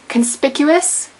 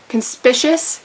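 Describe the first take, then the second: First: The second C is a hard K sound. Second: The second C is a soft sound. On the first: The speaker calls it right. "You do pronounce the C as a hard C" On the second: The speaker calls it wrong. "not conspicuous"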